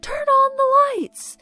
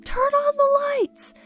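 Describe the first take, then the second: First: High, loud, slow chant-like yell; screaming again. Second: High, loud, drawn-out yell; screaming. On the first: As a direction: keep yelling it slow and loud at the houses. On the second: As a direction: shout it slowly up at the dark houses. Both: Retold or imitated. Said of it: "they start screaming".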